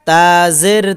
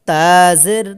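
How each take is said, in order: Both takes have the same delivery.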